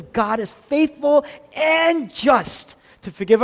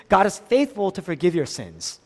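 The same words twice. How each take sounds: First: "and just" shouted high, loud and slow; "and just" drawn out in a raised preacher's shout; stress on AND JUST. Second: Said in the usual way. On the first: Shown as a demonstration. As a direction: punch out "and just" as the crucial correction. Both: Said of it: "That's not what it says".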